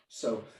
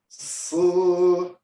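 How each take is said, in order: First: The sound is whispered without voice. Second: The sound is voiced out loud. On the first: "the subaudible or the whispered version" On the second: "we don't go so"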